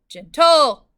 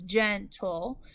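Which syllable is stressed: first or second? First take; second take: second; first. First: The stress is on the second syllable. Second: The stress is on the first syllable. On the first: The speaker calls it wrong. "not gentle" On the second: The speaker calls it right. "gen would be accented because the consonant L E is never accented. It is gentle"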